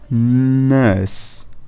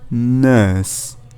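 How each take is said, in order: Both takes have the same delivery.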